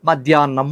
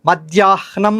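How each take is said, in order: First: A doubled n is said with no h. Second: The h sound comes before the n. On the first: It is how ordinary people say it. "నాకు నావత్తిచ్చేసి ఆ రెండు సమస్యలను దాటేశారు" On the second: It follows the written form. "రాసిన లిపిలో ఇలా ఉంది కాబట్టి అది పలకాలి అనుకుని"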